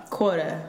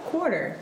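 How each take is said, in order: First: QUARTER ending in "uh", no final r; dropped final r. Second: QUARTER with a clear "er" ending; sounded final r. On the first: Friend showing how we say it, QUARTER ending in "uh". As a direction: say QUARTER as "quort-uh". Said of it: "We say, uh". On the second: Friend correcting the demo, QUARTER with a clear final r. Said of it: "I say quarter". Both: Shown as a demonstration.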